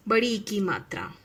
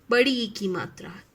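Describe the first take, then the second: No difference in how they are said.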